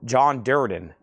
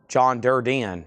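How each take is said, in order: First: "Durden" as DUR-din, two syllables; "Durden" stressed up front, ending short; name said DUR-din. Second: "Durden" as dur-dee-en; "Durden" drawn into three syllables, dur-dee-en; variant dur-DEE-en. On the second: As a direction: say "Durden" with an added ee before the n. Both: Shown as a demonstration. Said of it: "What have I been saying?".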